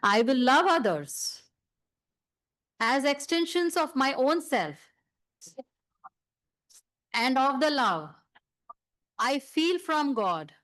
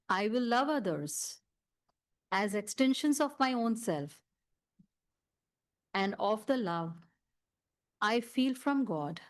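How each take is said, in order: First: It is said loudly. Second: It is said softly.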